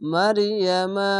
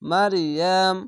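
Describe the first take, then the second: First: The word ends with an 'a' vowel. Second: The word ends on a bare 'm' sound. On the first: The reading runs straight into the next word. The speaker calls it right. "মারিয়ামা মারিয়ামা মিলানো হচ্ছে এরকম" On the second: The reading stops after this word. The speaker calls it wrong. "এখানে থামতে গেলে মারিয়াম মারিয়াম এভাবে থেমে যেতে হবে"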